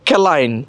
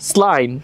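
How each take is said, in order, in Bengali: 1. শব্দটি k ধ্বনি দিয়ে শুরু হয়। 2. শব্দটি s ধ্বনি দিয়ে শুরু হয়। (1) "ক্যালাইন হবে না এটা" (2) "প্যারিসের স্লাইন"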